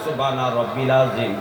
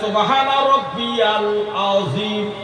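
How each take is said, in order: First: The middle word is shortened to two syllables, rab-bil. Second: The middle word has three syllables, rab-bi-yal. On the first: The speaker calls it wrong. "আর আপনি বললেন" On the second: The speaker calls it right. "হাদিসে লেখা আছে"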